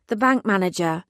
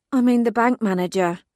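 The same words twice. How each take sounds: First: Said in the usual way. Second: "I" pushed up and louder; stress on I. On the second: Acted. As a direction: lean hard on "I" in "I mean".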